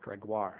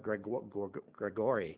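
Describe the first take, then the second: First: The name ends with a 'wahr' sound. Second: The name ends with an 'ee' sound, like Gregory. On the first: The speaker calls it right. "but it's pronounced Gregoire" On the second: The speaker calls it wrong. "I used to call her Gregory"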